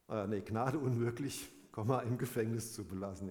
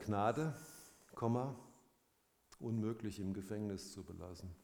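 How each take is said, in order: First: The pause comes after the word unmöglich. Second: The pause comes after the word Gnade. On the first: Mercy is refused; the man stays in prison. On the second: Mercy is granted; the man cannot stay in prison.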